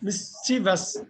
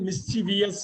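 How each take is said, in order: First: It has three syllables, ending in plain -vus. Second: It has four syllables, with an extra vee sound. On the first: The speaker calls it right. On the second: The speaker calls it wrong.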